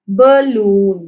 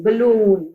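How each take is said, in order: First: balloon drawn out as ba, loon; syllable by syllable. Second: Said in the usual way. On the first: Shown as a demonstration. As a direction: split balloon into two clear syllables. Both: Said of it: "टू syllables हैं".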